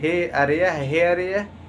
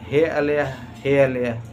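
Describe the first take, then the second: First: The middle consonant is an R sound. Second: The middle consonant is an L sound. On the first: It is what the speakers intended to say. The speaker calls it right. "उसका अर्थ हेरिया कहना चाह रहे थे" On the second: It accidentally means scorpion. The speaker calls it wrong. "मुंह से निकल गया"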